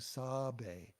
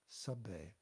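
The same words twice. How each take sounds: First: The first vowel is a full, open 'a'. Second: The first vowel is a very short 'uh'. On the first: The speaker calls it wrong. "be sure that you're not saying sabe" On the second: The speaker calls it right. "it's a very, very short uh sound"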